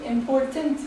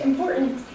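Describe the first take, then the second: First: Important with the T fully spoken; clear T. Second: Important with the T swallowed, impor'ant; dropped T. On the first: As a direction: say important with a crisp T. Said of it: "as opposed to important". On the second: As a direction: say important with a glottal stop for the T. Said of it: "Americans drop the T completely". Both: Shown as a demonstration.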